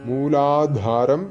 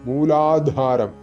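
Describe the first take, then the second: Both takes have the same delivery.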